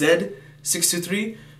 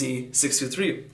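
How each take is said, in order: First: The first letter is pronounced 'zed'. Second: The first letter is pronounced 'zee'. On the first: This is the Canadian and international way. "as you pronounce here in Canada and many parts of the world" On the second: This is the American way. "for the neighbors down south in America, they pronounce it as"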